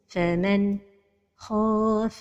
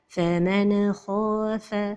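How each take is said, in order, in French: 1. Il y a une coupure juste après le n. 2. Le son n est relâché avec un rebond. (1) "La dernière erreur, c'est la pause" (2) "La première erreur, c'est al-qalqalah de an-nun as-sakina"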